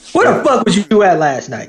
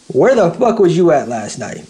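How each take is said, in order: First: It is said with strong, forceful emphasis. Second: It is said flatly with little force.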